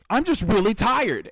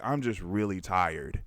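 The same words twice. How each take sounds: First: The voice sounds irritated and frustrated. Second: The voice sounds calm and not irritated. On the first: The speaker seems annoyed with the listener. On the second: The speaker is simply sharing that they feel tired.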